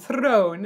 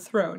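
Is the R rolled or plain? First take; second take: rolled; plain. First: The R is rolled. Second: The R is plain, not rolled. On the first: "the rolled R he add on throne" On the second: "instead of throne"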